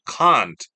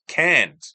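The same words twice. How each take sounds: First: CAN'T said the British way, with a long open ah. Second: CAN'T said the American way, with a front a as in "cat". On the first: Learner shows the AI the word they use, British CAN'T with a broad ah. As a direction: say CAN'T as "kahnt", British style. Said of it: "A K A British accent". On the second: Learner shows the AI the form they avoid, American CAN'T with a short front a. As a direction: say CAN'T as "kant", American style. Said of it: "I don't really use can't". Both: Shown as a demonstration.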